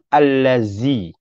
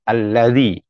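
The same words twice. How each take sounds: First: The middle consonant is a buzzing 'z' sound. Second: The middle consonant is a soft 'th' sound. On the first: The speaker calls it wrong. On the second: The speaker calls it right.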